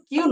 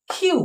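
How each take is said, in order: First: কিউ with no puff of air; unaspirated Q. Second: কিউ with a puff of air, "khyu"; aspirated Q. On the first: Teacher showing how not to name the letter, unaspirated কিউ. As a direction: say কিউ as an airless "kyu". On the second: Teacher modelling the letter's name for students, aspirated কিউ. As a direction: say কিউ as a breath-released "khyu". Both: Shown as a demonstration. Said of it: "এটা কিন্তু কিউ নয়".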